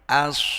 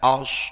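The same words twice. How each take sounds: First: The vowel is a clear, open 'a' sound. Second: The vowel is darkened toward an 'o' sound. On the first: The speaker calls it right. "tapi als tetap a" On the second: The speaker calls it wrong. "bukan als begitu"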